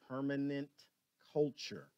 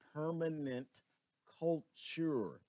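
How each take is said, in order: First: It is said at normal speed. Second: It is said very slowly.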